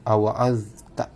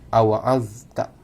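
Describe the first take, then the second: The two takes are said the same way.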